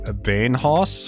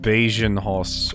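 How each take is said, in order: First: The J sound is left out entirely. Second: The J is pronounced as a hard sound. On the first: "either the J is silent" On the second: "or it's pronounced like hard"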